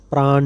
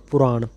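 First: ਪ੍ਰਾਣ with no vowel between ਪ and ਰ; ਪ੍ਰਾਣ said as one cluster, the u dropped; wrong pronunciation. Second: ਪੁਰਾਣ with the short u sounded after ਪ; ਪੁਰਾਣ, not squeezed into ਪ੍ਰਾਣ; correct pronunciation. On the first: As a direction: demonstrate the mistake ਪ੍ਰਾਣ, a clipped praaN. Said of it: "ਪ੍ਰਾਣ ਨਹੀਂ ਕਰਨਾ ਪਾਠ". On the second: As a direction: say ਪੁਰਾਣ as pu-raaN, vowel clearly voiced. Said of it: "ਪੱਪੇ ਨੂੰ ਔਂਕੜ ਨਾਲ ਪੁਰਾਣ". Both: Shown as a demonstration.

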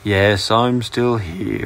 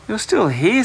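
First: Slow, grumpy, drawn-out reply; cross. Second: High-pitched, astonished discovery; surprised. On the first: Dragon stuck in the closet answers the boy, crossly. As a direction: drag it out crossly, word by word. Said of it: "replied the dragon crossly". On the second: Boy finds the dragon still in his closet, surprised. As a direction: exclaim it high, as a surprised find. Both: A narrator's reading.

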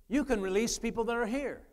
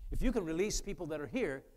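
First: Higher and louder, driving the point home; preaching emphasis. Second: Said in the usual way. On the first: Shown as a demonstration. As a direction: repeat it with full preacher force. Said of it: "repeated line, preached louder, higher". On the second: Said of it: "repeats line, second louder".

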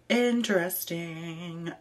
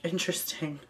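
First: Interesting stretched out slowly, dry and knowing; slow drawn-out interesting. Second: Said in the usual way. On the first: Real, not acted. Reading a fetish request, drawn-out amused interesting.

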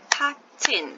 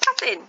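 First: "Patting" as two beats, "pat", pause, "ting"; split into syllables. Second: Said in the usual way. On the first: Shown as a demonstration. Teacher showing the split in a word, split into syllables. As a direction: break "Patting" cleanly between its two syllables. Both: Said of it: "there you have the split".

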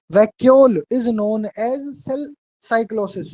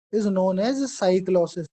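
First: Very slow dictated "cell cyclosis", the word cell added by mistake; slow dictation slip. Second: Very slow, "cyclosis" alone, without "cell"; corrected dictation. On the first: Teacher dictating to students, slips in "cell" before "cyclosis". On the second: Teacher correcting a dictated slip for students, slow and clear. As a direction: redictate "is known as cyclosis" slowly and clearly. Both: Shown as a demonstration.

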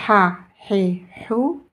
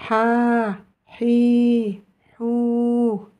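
First: "Ha, Hi, Hou" with brief vowels; short vowels. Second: "Ha, Hi, Hou" with each vowel held long. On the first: Teacher recaps the short vowels, "Ha, Hi, Hou" said short. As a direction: keep each of "Ha, Hi, Hou" short. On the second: Teacher recaps the long vowels, "Ha, Hi, Hou" held long. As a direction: stretch "Ha, Hi, Hou" evenly, one by one. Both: Shown as a demonstration. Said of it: "les voyelles courtes et les voyelles longues".

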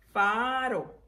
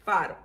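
First: "Faro" drawn out as faa-ro; syllable by syllable. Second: Said in the usual way. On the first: Shown as a demonstration. Teacher reviewing the words, "Faro" in slow syllables. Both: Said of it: "vamos a repasar las palabras".

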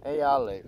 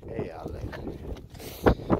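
First: Said in the usual way. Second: Slow, hushed, almost whispered; soft whisper. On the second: Real, not acted. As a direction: breathe it softly to the dog. Handing treats to the dogs.

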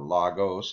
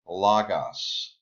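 First: "logos" with a long second o, LOH-gohs; alternative pronunciation. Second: "logos" with a short second vowel, LOG-oss; variant pronunciation. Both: Shown as a demonstration. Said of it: "however you want to pronounce it".

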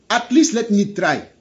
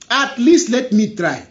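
The two takes are said the same way.

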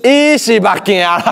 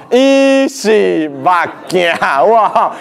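First: Said in the usual way. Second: 伊是目镜 stretched out syllable by syllable; very slow, deliberate 伊是目镜; slow sign reading. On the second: Shown as a demonstration. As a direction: draw out each word of 伊是目镜. Teacher repeats sign slowly for effect.

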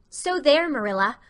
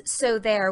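First: "So there" leaps much higher and louder, rising; a child's emphatic "So there" taken as defiance. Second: Said in the usual way. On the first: A narrator's reading. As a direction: punch "So there" as a final emphasis. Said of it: "intended to emphasize her assertion".

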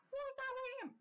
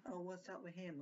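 First: Concerned nurse take. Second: Careless nurse take. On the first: Showing how a nurse should ask a colleague, high caring. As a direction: ask it with real, raised concern. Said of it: "You have to say to the other nurse". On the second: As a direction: throw the question away as if bored. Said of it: "Not like". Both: Shown as a demonstration.

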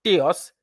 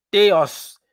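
First: Théos with the weight on the last syllable, -os; Théos stressed on its final syllable -os, moderate emphasis. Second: Théos with the last syllable -os hit hard and loud; théos pressed firmly on its final syllable; strong final stress. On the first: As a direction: lean on the ending of Théos. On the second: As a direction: punch the ending of théos. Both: Shown as a demonstration. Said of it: "l'accent tonique sur sa finale".

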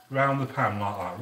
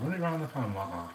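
First: Said in the usual way. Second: Fast and soft, run it round the pan said again quickly; quicker, softer repeat. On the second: Shown as a demonstration. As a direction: toss off the repeat quickly and quietly. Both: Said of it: "what you wanna do".

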